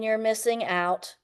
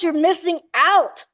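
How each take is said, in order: First: It is said flatly, without excitement. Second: It is said with lively, excited energy. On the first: It is just text that someone reads. "when it's in writing" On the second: The listener can hear real enthusiasm. "there's so much more excitement"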